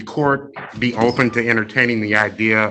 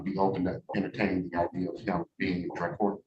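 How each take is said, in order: First: Louder, projecting to the room; outside voice. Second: Said too quietly to hear; quiet mumble. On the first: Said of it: "Talk to us like you're talking to them kids". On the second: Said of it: "Speak up, I can't hear you". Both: Real, not acted.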